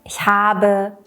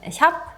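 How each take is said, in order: First: The verb ends with a full final vowel. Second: The verb's final vowel is dropped entirely. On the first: "Im Deutschunterricht lernst du sie so zu konjugieren" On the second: "wird in der gesprochenen Sprache oft das E am Ende verschluckt"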